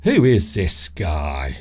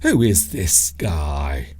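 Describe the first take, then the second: First: It is said in a hostile, negative tone. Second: The same.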